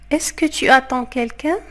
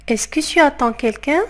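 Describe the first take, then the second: No difference in how they are said.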